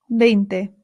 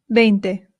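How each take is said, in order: The two takes are said the same way.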